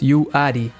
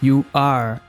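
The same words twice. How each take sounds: First: The R at the end is plain and weak. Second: The R at the end is strongly curled. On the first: The speaker calls it wrong. "não falamos you are" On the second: The speaker calls it right. "mas sim you are, bem forte"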